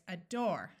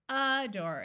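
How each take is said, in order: First: The stress is on the second syllable. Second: The stress is on the first syllable. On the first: The speaker calls it right. "Did you remember to accent the second syllable? it's adore" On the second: The speaker calls it wrong. "It's not adore"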